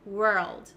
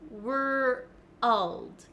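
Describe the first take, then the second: First: It is said quickly as one syllable. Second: It is split into two slow parts. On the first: "try to get it faster and faster" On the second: "break down the word and say were first, and then to get the L sound"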